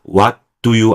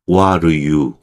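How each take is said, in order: First: Every word is pronounced fully and clearly. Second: The weak words are reduced and run together. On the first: The speaker calls it wrong. "what do you 안 하고요" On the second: The speaker calls it right. "슈화 현상이 벌어진다"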